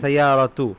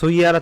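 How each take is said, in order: First: The word ends with an added 'tu' sound. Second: The word ends on a plain 'a' vowel. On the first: The speaker calls it right. "কিন্তু সৈয়ারা তু" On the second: The speaker calls it wrong. "সৈয়ারা তো বলবেন না"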